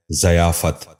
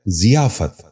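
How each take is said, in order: First: ضیافت starting with "za", "za-yaa-fat"; wrong pronunciation. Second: ضیافت starting with "zi", "zi-yaa-fat"; correct pronunciation. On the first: Teacher showing viewers the mistake, wrong pronunciation. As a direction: say ضیافت as zayaafat. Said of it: "یہ غلط تلفظ ہے". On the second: Teacher giving viewers the model, correct pronunciation. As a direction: say ضیافت as ziyaafat. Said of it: "درست تلفظ ہے". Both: Shown as a demonstration.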